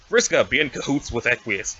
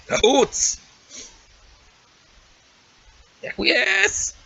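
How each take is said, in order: First: Said in the usual way. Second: High, far cry of "Cahoots!" and "Equius!"; excited exclamations. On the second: Shown as a demonstration. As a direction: shout the names up high.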